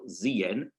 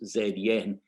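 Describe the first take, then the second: First: The name is said in an American style. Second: The name is said in a non-American style. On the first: The speaker calls it right. "should be American style" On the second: The speaker calls it wrong. "until about an hour ago I was pronouncing as"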